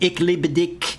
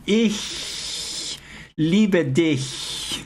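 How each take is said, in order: First: The ch is not a soft palatal hiss. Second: The ch is a soft palatal hiss. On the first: The speaker calls it wrong. "They say ich liebe dich" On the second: The speaker calls it right. "It's the same sound as in human"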